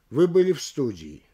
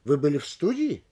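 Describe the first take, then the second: First: Plain statement falling on СТУДИИ; statement, no rise. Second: Sharp questioning rise on СТУДИИ; questioning intonation. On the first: Lecturer showing no rise means no question, falling statement. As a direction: say it without any questioning lift, СТУДИИ down. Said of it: "Нет повышения и нет вопроса". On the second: Lecturer showing intonation alone makes a question, rise on СТУДИИ. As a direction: lift the stressed syllable of СТУДИИ to ask. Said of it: "Здесь только интонация поднимает предложение". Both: Shown as a demonstration.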